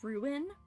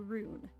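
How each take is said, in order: First: The word is said in a general, non-Midwestern way. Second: The word is said in a Midwestern way. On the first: "Instead of saying ruin" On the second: "ruin is very Midwestern. ... we say rune"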